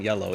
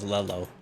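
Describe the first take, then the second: First: The word begins with a Y sound. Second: The word begins with an L sound. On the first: "it wasn't yellow" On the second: "So he pronounced it as L"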